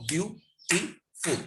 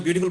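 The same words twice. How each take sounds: First: বিউটিফুল very slowly, বিউ... টি... ফুল; teacher splitting বিউটিফুল into three separate beats; broken into syllables. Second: Said in the usual way. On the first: Shown as a demonstration. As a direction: leave a gap after each syllable of বিউটিফুল. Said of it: "তিনটা syllable". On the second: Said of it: "তার সঙ্গে যদি বিউটিফুল বলবো".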